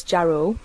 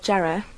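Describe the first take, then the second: First: Jarrow said the posh way, lightly; a touch of a posh Jarrow. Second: Jarrow in her own Geordie way; local Jarrow. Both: Shown as a demonstration. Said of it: "otherwise known as Jarrow by posh people".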